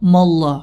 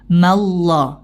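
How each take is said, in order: First: The m is thick, its vowel sounding like o. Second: The m is thin, its vowel sounding like a. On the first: The speaker calls it wrong. "Jadi dibaca mimnya dengan mo, mo" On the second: The speaker calls it right. "harusnya ma"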